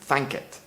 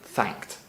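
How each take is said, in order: First: The ending has an extra 'i' vowel before 't'. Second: The ending has no extra vowel before 't'. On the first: This is the older Scots form. "the I being pronounced in thanket" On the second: This is the modern form. "most modern Scots would pronounce it thanked"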